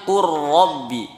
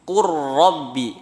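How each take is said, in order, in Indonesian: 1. L melebur ke dalam bunyi R yang dobel. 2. L melebur ke dalam bunyi R yang dobel.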